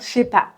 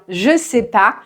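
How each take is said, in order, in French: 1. La voyelle de 'je' est supprimée. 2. La voyelle de 'je' est prononcée.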